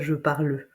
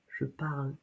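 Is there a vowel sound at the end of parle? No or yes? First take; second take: yes; no. First: A final vowel sound is added after parle. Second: Parle ends without any final vowel sound. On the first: The speaker calls it wrong. "C'est pas je parle" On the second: The speaker calls it right. "On ne prononce pas le e à la fin"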